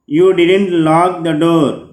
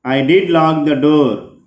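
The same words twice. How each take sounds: First: Said in the usual way. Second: "did" stressed strongly for emphasis. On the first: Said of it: "if you observe the examples". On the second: Shown as a demonstration. Teacher reading the example reply, strong stress on "did". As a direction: punch "did", then let the rest fall. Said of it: "stressed strongly".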